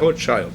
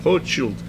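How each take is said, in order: First: The name is pronounced the English way. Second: The name is pronounced the French way. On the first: "em inglês é Rothschild" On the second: "em França é Rothschild"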